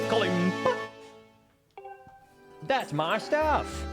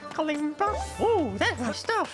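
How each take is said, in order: First: It is said in his own natural voice. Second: It is said in a put-on Tingle voice.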